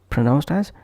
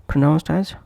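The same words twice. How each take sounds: The two takes are said the same way.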